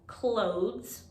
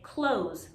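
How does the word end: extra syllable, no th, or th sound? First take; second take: th sound; no th. First: The s follows the th sound directly. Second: The th is dropped, ending in plain z. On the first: "where we ignore the E and we put the S right after T H" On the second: "most people, especially here in New York City, say close, like close the door"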